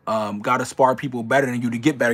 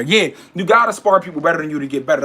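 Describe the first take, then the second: First: Said in the usual way. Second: Louder, higher, punching "gotta"; emphatic repeat. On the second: Real, not acted. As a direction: drive the repeat home hard.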